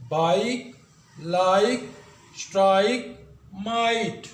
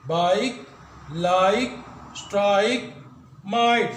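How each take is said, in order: First: बाइक लाइक स्ट्राइक माइट with a long आई glide; clear लंबी आई वाली आवाज़; long I demo. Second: बाइक लाइक स्ट्राइक माइट with a long आई glide, louder; ज़ोर से लंबी आई वाली आवाज़; long I demo. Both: Shown as a demonstration. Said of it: "जो आई है वो अपनी लॉन्ग साउंड प्रोड्यूस कर रहा है".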